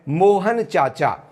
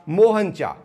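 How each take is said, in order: First: The name is said in full, unhurried. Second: The name is said quickly, final syllable dropped. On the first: "किसी व्यक्ति को पुकारना है" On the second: "जल्दी से कह दिया"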